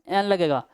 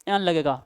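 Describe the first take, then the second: Both takes have the same delivery.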